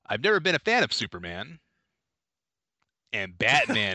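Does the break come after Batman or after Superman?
after Superman. The phrase breaks after the word Superman. He dislikes Superman but likes Batman. The speaker calls it right. "Take two"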